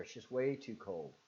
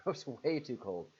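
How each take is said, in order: First: Said in the usual way. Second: Laughing it out, slower and louder. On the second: Real, not acted. Laughing to a chat viewer about cold Rhode Island. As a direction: chuckle through the repeat.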